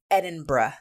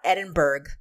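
First: The word ends with a 'burra' sound. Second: The word ends with a 'burg' sound. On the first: The speaker calls it right. "It's Edinburgh, which I have to deliberately concentrate and make sure I say it right" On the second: The speaker calls it wrong. "It's not Edinburgh"

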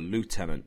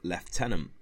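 First: The first syllable sounds like 'loo', American style. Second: The first syllable sounds like 'left', British style. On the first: This is the American way of saying it. "depending on whether you're British or American" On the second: This is the British way of saying it. "depending on whether you're British or American"

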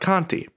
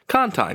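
First: It is said the outsider, non-local way. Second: It is said the local New Orleans way. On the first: The speaker calls it wrong. "not Conti" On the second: The speaker calls it right. "saying the names of New Orleans street names"

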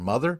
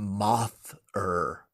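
First: It is said as the ordinary word mother. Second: It is said as the word moth plus er. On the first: It means a parent. "oh, your mother?" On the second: It names a moth-themed villain. "it's all in the pronunciation where it's like, I'm Moth-er"

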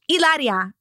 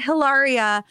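First: The name begins with a vowel, no H. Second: The name begins with an audible H sound. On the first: The speaker calls it right. "The H is silent" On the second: The speaker calls it wrong. "it's not Hilaria"

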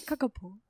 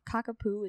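First: The word ends with a 'poh' sound. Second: The word ends with a 'poo' sound. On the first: "Because he wouldn't say poo" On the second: "is literally how I wanted to pronounce it for so long"

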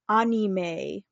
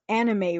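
First: The word has a Japanese-style pronunciation. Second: The word has an English-style pronunciation. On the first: The speaker calls it right. "It's pronounced anime" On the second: The speaker calls it wrong. "everybody says anime wrong"

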